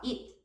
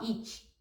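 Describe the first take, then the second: First: The final T is nearly silent. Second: The final T is clearly released. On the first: The speaker calls it right. "ele tem um T quase mudo" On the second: The speaker calls it wrong. "você não fala it"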